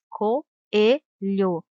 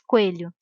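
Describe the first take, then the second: First: The o and e are in separate syllables. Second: The o and e blend into one syllable. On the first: The speaker calls it right. "se diz" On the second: The speaker calls it wrong. "Não se diz"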